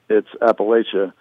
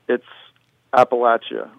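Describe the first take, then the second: First: It is said the northern way. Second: It is said the southern way. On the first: "above the Mason-Dixon line, it's Appalachia" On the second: "below the Mason-Dixon line, it's Appalachia"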